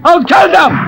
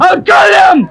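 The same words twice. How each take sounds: First: Furious yell at the cheater; raging threat shouted across the market; angry shout. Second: Higher, louder near-sobbing yell; same threat again, now breaking into a cry; crying rage. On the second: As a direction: let the threat crack into a wail. Threat repeated, escalating. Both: Acted.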